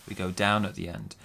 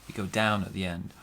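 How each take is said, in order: No difference in how they are said.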